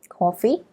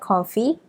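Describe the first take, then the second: First: The word is said with a French accent. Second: The word is said with a plain English accent.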